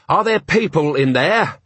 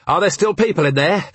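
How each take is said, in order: First: High, slowed-down demand, falling at the end; insistent question. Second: High-pitched urgent demand, rising at the end; urgent question. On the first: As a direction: spell it out slowly to someone not listening. Question repeated to panicking man. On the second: Urgent questioning during a fire. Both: A narrator's reading.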